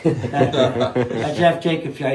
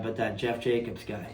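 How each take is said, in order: First: Slow, laughing mock grumble on that Jeff Jacobs guy; mock grudge. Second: A soft, muttered aside; quiet grumble. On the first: Rider teasing old rival for the hosts, slow mock grudge. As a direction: drag out the rival's name, playfully sour. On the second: Rider grumbling to hosts about old rival, quietly. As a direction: mutter the rival's name under your breath. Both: Real, not acted.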